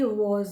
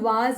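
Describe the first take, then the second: First: The vowel is a rounded 'aw' sound. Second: The vowel is an open 'aa' sound. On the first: The speaker calls it right. "ये वॉज होगा" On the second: The speaker calls it wrong. "कई लोग सोचते हैं कि ए लगा हुआ है तो हम वाज बोलेंगे"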